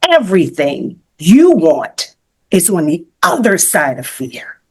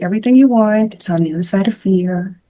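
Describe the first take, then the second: First: It is said forcefully, like an exclamation. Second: It is said in a flat, plain way.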